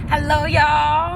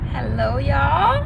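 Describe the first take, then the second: First: The greeting is said with high energy. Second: The greeting is said with low energy. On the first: The speaker calls it right. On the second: The speaker calls it wrong.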